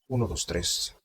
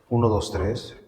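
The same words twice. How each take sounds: First: The voice goes through an old-style vintage filter. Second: The voice goes through a melodic-sounding filter. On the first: "Este filtro se llama Vintage" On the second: "Y el melódico"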